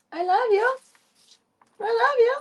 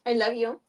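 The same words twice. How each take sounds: First: High, louder cooing; high squealed I love you; cooing to cat. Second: Said in the usual way. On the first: Shown as a demonstration. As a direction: coo it to the cat.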